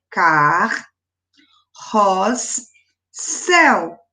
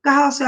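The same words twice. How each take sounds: First: "car, ros, céu" as three syllables with long gaps. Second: Said in the usual way. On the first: Shown as a demonstration. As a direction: split "car, ros, céu" at the doubled consonants, pausing between. ("car, ros, céu" separado em sílabas, com pausas) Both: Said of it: "também fica separado".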